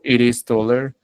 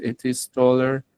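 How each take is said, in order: First: "it is" linked like "iris"; flapped T. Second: "it is" with the t fully sounded; crisp t in "it is taller"; clear T. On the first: Teacher offers the alternative reading, flapped T. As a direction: tap the t in "it is taller". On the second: Teacher reads the student's sentence, clear T. Two takes joined by "or. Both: Shown as a demonstration.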